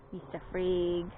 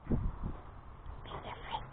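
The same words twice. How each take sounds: First: Said in the usual way. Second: Slow, breathless whisper of the name. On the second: Real, not acted.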